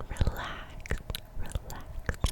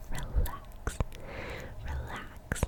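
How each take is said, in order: Both takes have the same delivery.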